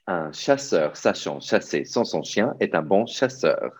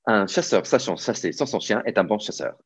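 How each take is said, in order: First: It is said quickly. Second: It is said even more quickly.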